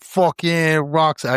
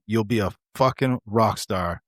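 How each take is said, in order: First: Drawn-out, higher attempt at his accent; attempted accent of Stoll. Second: Said in the usual way. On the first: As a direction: have a go at his accent, stretching the words. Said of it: "I can't do his fucking accent". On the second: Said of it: "Actually, he would be like".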